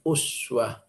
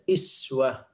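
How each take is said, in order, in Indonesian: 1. Kata ini dimulai dengan vokal u. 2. Kata ini dimulai dengan vokal i. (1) "Hafiz an Asim yang membaca uswah" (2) "riwayat lain dibaca iswah"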